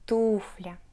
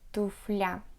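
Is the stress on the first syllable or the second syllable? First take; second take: first; second. First: The stress falls on the first syllable. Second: The stress falls on the second syllable. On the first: The speaker calls it right. "stress the first syllable tu" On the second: The speaker calls it wrong. "some Russian people pronounce it as туфля... it sounds very weird"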